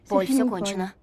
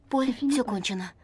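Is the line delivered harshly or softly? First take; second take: harshly; softly. First: The line is spoken in a harsher tone. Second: The line is spoken in a softer tone.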